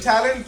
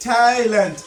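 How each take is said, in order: First: Said in the usual way. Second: ট্যালেন্ট split into two separate syllables; teacher counting out the two syllables of ট্যালেন্ট. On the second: Shown as a demonstration. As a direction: say ট্যা, then লেন্ট, with a small break. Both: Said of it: "এটা হচ্ছে অবশ্যই ডি syllable".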